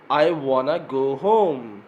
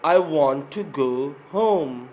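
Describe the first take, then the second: First: 'Want to' is reduced to 'wanna'. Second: 'Want to' is said as two full words.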